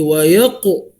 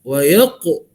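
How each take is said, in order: Both takes have the same delivery.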